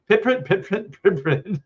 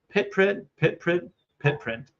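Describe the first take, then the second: First: It is said faster. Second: It is said at a normal speed.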